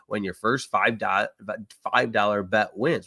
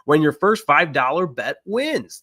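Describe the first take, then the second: First: It is said slowly with a break before the end. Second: It is said quickly in one smooth run. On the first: The speaker calls it wrong. "Wow, let's try that again" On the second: The speaker calls it right. "Say that faster"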